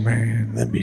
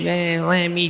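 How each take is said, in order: First: The voice is quiet, low-key and cool. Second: The voice is a loud, exaggerated impression. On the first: This is how he really sounds. The speaker calls it right. "It's kind of quiet and cool" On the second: This is how people usually imitate him. The speaker calls it wrong. "the impression everybody does"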